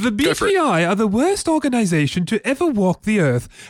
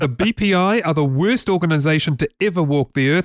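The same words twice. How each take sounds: First: It is said in an imitated British accent. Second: It is said in the speaker's ordinary, non-British accent.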